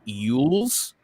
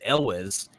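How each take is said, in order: First: The surname starts with a Y sound. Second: The surname starts with a plain vowel sound. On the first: This is the Welsh way to say it. "I think it's pronounced Yules, actually" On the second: This is how the group usually says it. "We all pronounce it Elwes"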